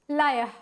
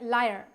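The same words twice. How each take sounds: First: It is said in a British accent, without the r. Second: It is said in an American accent, with the r sounded. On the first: "So but British English they say liar" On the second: "in American like English they say liar... So R ka pronounce"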